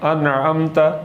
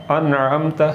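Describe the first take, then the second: No difference in how they are said.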